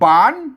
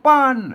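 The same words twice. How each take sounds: First: The syllable is said with a rising tone. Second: The syllable is said with a falling tone. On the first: "เสียงจัตวา" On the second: "เสียงโท"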